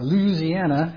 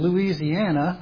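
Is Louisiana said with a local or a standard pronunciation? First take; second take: local; standard. First: It is said with the local regional pronunciation. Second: It is said with a standard, general pronunciation.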